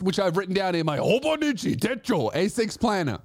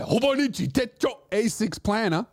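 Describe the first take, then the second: First: Said in the usual way. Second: Hobonichi Techo A six planner in a hammed-up Japanese accent; a mock Japanese accent on the planner name; jokey put-on Japanese accent. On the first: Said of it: "I'm gonna say it like that". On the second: Shown as a demonstration. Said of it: "every time I talk about my Hobonichi Techo A six planner, I'm gonna say it like that".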